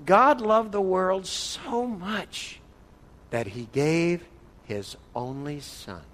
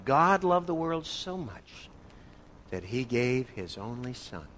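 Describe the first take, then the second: First: Very slow, weighty read of the verse; slow solemn scripture reading; slow reverent reading. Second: Slow, weighty, trailing off softer; slow solemn scripture reading, fading; slow reverent reading. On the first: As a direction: read each word slowly, letting it sink in. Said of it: "So it looks something like this". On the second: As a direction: read the verse slowly and solemnly. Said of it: "How does this strike you?". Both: Shown as a demonstration.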